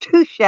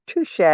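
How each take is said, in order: First: High, slightly louder, theatrical touché; mock-grand touché. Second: Softer, tossed-off touché. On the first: Teasing the viewers about their drive, a showy high touché. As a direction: tip the hat to them with a high, showy touché. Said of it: "all I can say ... was". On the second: Retold or imitated. Repeating it to the viewers, a much softer touché. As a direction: concede it again under the breath. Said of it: "Uh, my word".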